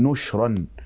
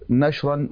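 First: The first consonant takes u; the second is unvowelled. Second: The first consonant takes a; the second is unvowelled. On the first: "بضم النون وإسكان الشين" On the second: "بفتح النون وإسكان الشين"

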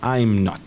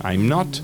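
First: The first two words are joined into one syllable. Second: The first two words are joined into one syllable.

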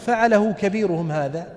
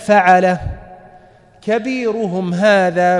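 First: The phrase runs on without a pause. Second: There is a pause after the first word. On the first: Their chief did it. "فظنوا أنه يقول" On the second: The one speaking did it himself. "قرأ هكذا"

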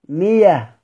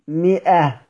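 First: The middle consonant is a y sound. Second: The middle consonant is a glottal stop. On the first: "مفتوحة بعد كسر هنبدلها ياء" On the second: "الهمزة هنا مالها يا شباب؟ مفتوحة"

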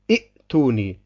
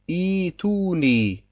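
First: The first syllable ends in a glottal stop. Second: The first syllable has a long i and no stop. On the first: The speaker calls it wrong. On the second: The speaker calls it right.

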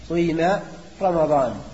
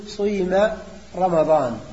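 First: A short u glides into a long i. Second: A short u glides into a long i.

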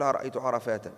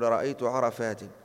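First: The last word ends with an 'a' vowel. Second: The last word ends with an 'i' vowel. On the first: The speaker calls it wrong. "ما تقول" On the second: The speaker calls it right. "تقول"

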